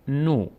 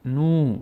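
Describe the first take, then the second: First: "نو" as a short no; brief o in "نو"; short vowel. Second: "نو" as a long noo; long vowel. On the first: Teacher showing nun alone, short "نو" as no. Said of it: "اما واو او رو تقویت". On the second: Teacher strengthening nun with vav, long "نو" as noo. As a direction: hold the oo in "نو". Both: Shown as a demonstration.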